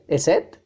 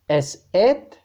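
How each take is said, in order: First: The words are said at a faster pace. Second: The words are said at a slower pace.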